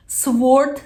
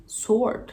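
First: Sword with the w sounded, swort; wrong sword. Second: Sword with a silent w, sord; correct sword. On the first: Teacher mocks the wrong Sword with a w. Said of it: "Sword değil". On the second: Teacher models sword, no w sound. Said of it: "buna sword demeyeceksin". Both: Shown as a demonstration.

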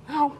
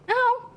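First: Said in the usual way. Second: Sharply high insistent "Phải không?"; "Phải không?" pitched up with a high rising "không"; pressing question. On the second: Acted. Aunt lecturing wife, pressing agreement.

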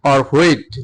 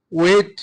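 First: "wheat" said with a breathy h, as hweet, falling; second pronunciation. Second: "wheat" said as weet, no h sound, rising; first pronunciation. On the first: Teacher shows the other way to say "wheat", hweet. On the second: Teacher shows the first way to say "wheat", weet. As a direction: say "wheat" as plain weet with a lifted end. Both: Shown as a demonstration. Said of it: "wheat and wheat দুইটা উচ্চারণ হয়".

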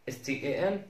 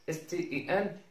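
Both takes have the same delivery.

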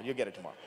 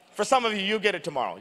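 First: Quiet aside. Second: Said in the usual way. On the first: Real, not acted. Teasing aside to crowd.

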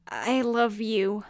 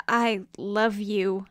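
First: Slow, tender confession. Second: Tender. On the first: Phoenix comforting dying rival. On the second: Remembered voice in memory. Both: Acted.

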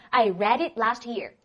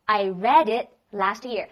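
First: Said in the usual way. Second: Slow, louder, every word clear; slow repeat. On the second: Shown as a demonstration. Teacher slowly repeats the answer for the class. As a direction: drill it slowly for the class to copy. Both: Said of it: "然后他说".

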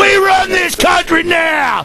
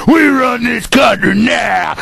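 First: Higher, shouted swagger; shouted cop boast. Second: Steadier, lower swaggering claim; lower cop boast. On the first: Radio host imitating a cop boasting of power, shouted. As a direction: yell it like the cop owns the place. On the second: Radio host imitating a cop boasting again, lower and smug. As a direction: settle back into smug menace. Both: Retold or imitated. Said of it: "that's an imitation of 'em".

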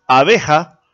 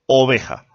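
First: Abeja with an open A at the start; clear first vowel a. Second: Oveja with a rounded O at the start; clear first vowel o. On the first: Teacher contrasting a and o: Abeja with a clear A. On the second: Teacher contrasting a and o: oveja with a clear O. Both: Shown as a demonstration. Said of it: "ya cambia la A con la O en la pronunciación".

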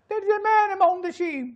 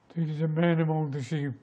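First: High, slow mimicked cry; high film character voice. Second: Slow, measured reply in natural register. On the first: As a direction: call it out slowly, pitched far up. Film scene, two contrasting voices. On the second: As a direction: say it gravely and unhurried, without raising pitch. Film scene, second character repeats. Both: Shown as a demonstration.

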